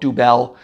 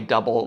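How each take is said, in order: First: It sounds different from the English word double. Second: It sounds just like the English word double. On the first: The speaker calls it wrong. "some people want to call it" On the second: The speaker calls it right. "it's pronounced that way"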